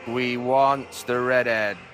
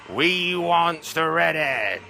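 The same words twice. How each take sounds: First: It is said in a natural voice. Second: It is said in a put-on character voice.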